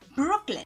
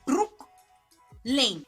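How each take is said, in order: First: The second syllable sounds like 'lin'. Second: The second syllable sounds like 'lane'. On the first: The speaker calls it wrong. "do not pronounce it Brooklyn" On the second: The speaker calls it right.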